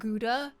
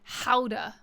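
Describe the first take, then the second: First: The word begins with a hard G sound. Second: The word begins with a breathy H-like sound. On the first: "Doesn't that word look and feel better in your mouth if you say it like Gouda?" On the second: "Why do we have to say it like Howda?"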